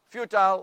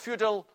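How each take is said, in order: First: The last syllable rhymes with 'mile'. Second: The last syllable rhymes with 'fill'. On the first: "you say tile or till" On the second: "you say tile or till"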